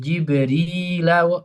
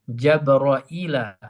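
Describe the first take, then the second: First: The name is said as Jibrila without hamza. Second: The name is said as Jabraila with hamza. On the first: "Hafaz gimana membacanya?" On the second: "Imam Syu'bah bagaimana membacanya?"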